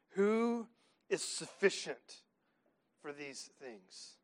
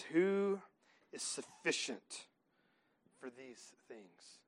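First: Drawn-out question fading to a hush; slow down and let it sink; slow weighty question. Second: Drawn-out, fading question; slow weighty question. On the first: Preacher asking the church again, slow and hushed. Preacher repeats the verse slowly. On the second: Preacher reading the verse to the church, slow and fading. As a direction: let each word hang and sink. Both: Acted.

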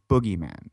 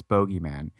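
First: "Boogeyman" with first vowel as in "book"; short OO in Boogeyman. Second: "Bogeyman" with first vowel as in "go"; long O in Bogeyman. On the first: Insisting to a co-host, "Boogeyman" with an OO sound. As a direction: say "Boogeyman" with OO, not OH. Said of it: "It's Boogeyman". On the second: Rejecting a co-host's version, "Bogeyman" with a long O. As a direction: say "Bogeyman" with a long O, BOH-gee-man. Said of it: "I refuse to believe that it's". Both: Shown as a demonstration.

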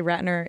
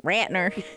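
First: Said in the usual way. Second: Southern accent. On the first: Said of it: "every time I say Ratner". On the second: Shown as a demonstration. Host showing how she says the director's name, Southern accent. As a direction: slip into a Southern drawl. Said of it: "I just drop into a Southern accent".

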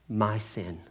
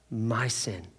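Both takes have the same delivery.

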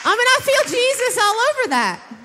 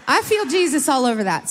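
First: Mock-excited, much higher pitch; playful high take. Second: Said in the usual way. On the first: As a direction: toss it up high and bright with fervor. Repeats line, second take plain.

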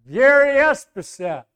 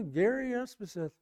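First: High, raised-voice introduction; loud repeated name. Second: Softly spoken name; understated introduction. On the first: Preacher repeating his name to the truck driver, loudly. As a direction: project the name so he catches it. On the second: Preacher giving his name to a truck driver, quietly. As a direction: give the name quietly, almost offhand. First answer, not caught by driver. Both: Retold or imitated.

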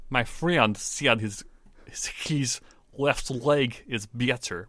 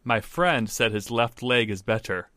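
First: Slow Russian accent, "friend" as "fryend". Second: Said in the usual way. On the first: Shown as a demonstration. Co-host practicing the accent rule, slow Russian accent. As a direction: labor through a Russian accent, "better" as "byetter". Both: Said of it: "E sounds sound more like a ye".

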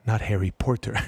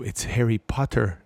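First: "Porter" said with "or" in place of "ah"; mock the mispronounced "Porter"; wrong pronunciation. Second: "Harry Potter" with an open "ah" in Potter; correct pronunciation. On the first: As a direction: mimic the mistake, "Porter" as POR-ter. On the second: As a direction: firmly correct it to "Potter", PAH-ter. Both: Shown as a demonstration.

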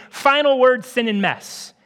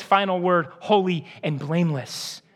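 First: Cynical verdict. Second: Tender verdict. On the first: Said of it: "what we're saying is". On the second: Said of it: "where Jesus says". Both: Pretend.

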